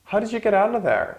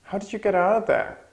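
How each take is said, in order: First: Sentence said much higher, falling at get; high model sentence. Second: Much higher voice, fall on out; high model again. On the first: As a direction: pitch it up like a surprised question. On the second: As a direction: ask it high and surprised. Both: Shown as a demonstration. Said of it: "And the last one".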